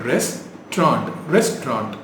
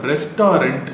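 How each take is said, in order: First: ரெஸ்டாரண்ட் as RES-traunt; two syllables. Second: ரெஸ்டாரண்ட் as res-TAA-rent; mispronounced restaurant. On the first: Teacher modelling the word, two syllables. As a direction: say ரெஸ்டாரண்ட் without the middle vowel. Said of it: "Two syllable". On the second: Teacher quoting the common error, mispronounced. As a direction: say ரெஸ்டாரண்ட் in three syllables. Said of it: "which is wrong". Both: Shown as a demonstration.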